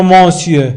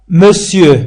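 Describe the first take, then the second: First: Monsieur said "mɑ̃sjø" with a nasal mon; wrong monsieur. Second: Monsieur said "mesjø", a light schwa, never "mon"; correct monsieur. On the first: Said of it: "لا نقول monsieur". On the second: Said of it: "ولكن نقول". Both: Shown as a demonstration.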